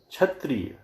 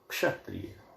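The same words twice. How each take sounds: First: The word begins with a 'chh' sound. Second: The word begins with a 'ksh' sound. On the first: The speaker calls it wrong. "क्ष के स्थान पर छ" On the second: The speaker calls it right. "शुद्ध"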